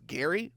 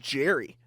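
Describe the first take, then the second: First: The name begins with a hard G sound. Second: The name begins with a soft J sound. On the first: The speaker calls it right. "oh, it's Gary" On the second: The speaker calls it wrong. "who is Jerry?"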